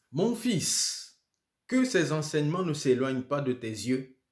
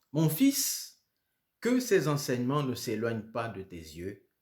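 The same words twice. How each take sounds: The two takes are said the same way.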